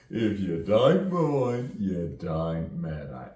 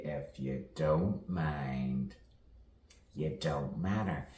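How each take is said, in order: First: Loud, drawn-out London accent. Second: Said in the usual way. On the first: Shown as a demonstration. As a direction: belt it out in broad London vowels. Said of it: "you know, from London". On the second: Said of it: "As we all say".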